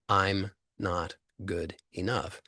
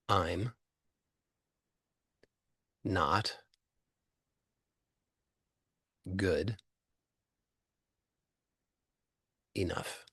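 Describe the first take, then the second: First: It is said at normal speed without pauses. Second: It is said very slowly with pauses between words.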